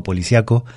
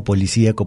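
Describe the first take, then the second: First: "policíaco" as po-li-cia-co, the I glided, A stressed. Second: "policíaco" with the í stressed, po-li-cí-a-co. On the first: Teacher drilling the unaccented form, stress on A. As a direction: swallow the i, hit the a in "policíaco". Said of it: "la vocal que suena fuerte es la A". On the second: Teacher drilling the accented form, stress on I. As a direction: land on the í in "policíaco". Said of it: "esa letra es la que tiene que sonar fuerte". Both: Shown as a demonstration.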